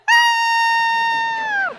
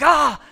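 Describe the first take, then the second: First: Very high, long, loud scream; hammed-up screaming your head off; imitated terrified scream. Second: Short, loud, raised "ah!" to startle; quick jump-scare yell; retold scare scream. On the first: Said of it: "she just lost it. She's like". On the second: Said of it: "and I screamed, and I was like".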